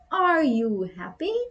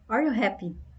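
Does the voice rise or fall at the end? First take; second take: rise; fall. First: The voice rises at the end like a question. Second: The voice stays flat like a statement.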